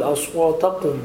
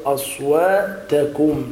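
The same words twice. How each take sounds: First: أصواتكم with a heavy back q, "aswataqum"; kaf like qaf. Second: أصواتكم slowly, with a light front k in كم; clear kaf. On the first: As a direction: imitate the mistake, ك in أصواتكم as ق. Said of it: "حتى لا تشبه الكاف بالقاف". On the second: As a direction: draw out أصواتكم, ending on a clean "-takum". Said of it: "الكاف بالقاف". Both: Shown as a demonstration.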